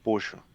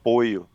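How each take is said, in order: First: The middle consonant sounds like 'sh'. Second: The middle consonant sounds like 'y'. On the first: This is how it is said in Argentina and Uruguay. "na Argentina e no Uruguai eles falam poxo" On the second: This is how it is said in other Spanish-speaking countries. "em outros países eles falam poio"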